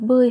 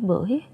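First: The syllable is said on a level tone. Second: The syllable is said on a dipping tone.

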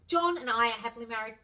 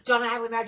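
First: It sounds convinced, stated as a fact. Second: It sounds mechanical, recited without conviction.

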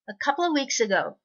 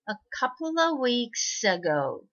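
First: The sentence is read at normal speed. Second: The sentence is read slowly. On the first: "2 回目普通の速さにしましょうね。" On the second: "最初ちょっとゆっくり読んで、"

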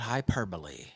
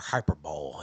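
First: The word is said with four syllables, ending 'bo-lee'. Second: The word is said with three syllables, ending 'bowl'. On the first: The speaker calls it right. "It's not hyperbole" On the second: The speaker calls it wrong. "as your dumbass would probably say"

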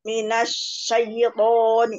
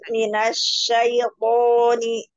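First: The word is said too quickly and hurriedly. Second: The word is said more slowly and evenly. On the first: The speaker calls it wrong. "terlalu minasyaiton. Jadi cepat, terlalu cepat" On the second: The speaker calls it right. "Coba gitu"

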